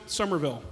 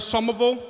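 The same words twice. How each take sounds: First: Said in the usual way. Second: "Somerville" with the Boston dropped R; Boston-style "Summaville" for "Somerville"; Boston accent. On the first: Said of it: "the way it's actually pronounced". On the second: Shown as a demonstration. Asking the crowd about mom's hometown, Boston accent. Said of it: "We pronounce it Somerville".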